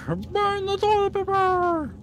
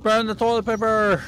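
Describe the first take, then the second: First: High, slow hammed-up cry; high silly villain voice. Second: Shouted. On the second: Acted. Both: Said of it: "repeat in put-on voice".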